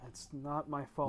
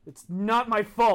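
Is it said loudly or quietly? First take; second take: quietly; loudly. First: It is said at a quieter level. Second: It is said loudly, almost shouted.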